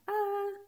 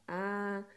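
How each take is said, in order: First: A held on a high, level note; higher-pitched A. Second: A held on a low, level note; lower-pitched A. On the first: Teacher shows students one vowel said higher, high-pitched. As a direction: say A long, in a higher tone. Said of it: "num tom um pouco mais agudo". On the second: Teacher shows students one vowel said lower, low-pitched. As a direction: say A long, in a deeper tone. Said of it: "num tom um pouco mais grave". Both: Shown as a demonstration.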